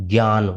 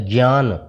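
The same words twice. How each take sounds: The two takes are said the same way.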